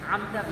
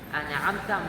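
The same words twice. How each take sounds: First: The n joins directly with no extra vowel. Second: An extra a vowel follows the n sound. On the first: The speaker calls it right. "an'amta bien" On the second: The speaker calls it wrong. "An'amta mal"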